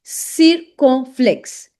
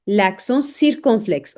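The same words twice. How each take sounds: First: CIRCONFLEXE drawn out in separate syllables; slow syllable-by-syllable demo. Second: Said in the usual way. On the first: Shown as a demonstration. Teacher introduces the next French accent, slow syllable-by-syllable. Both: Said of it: "that is l'accent".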